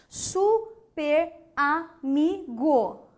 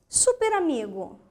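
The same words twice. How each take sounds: First: "Super amigo" slowly as su, per, a, mi, go; syllable by syllable. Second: Said in the usual way. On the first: Shown as a demonstration. Teacher showing a wrong separation, slow detached syllables. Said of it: "O que que você achou desta separação?". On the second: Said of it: "Como você separaria super amigo?".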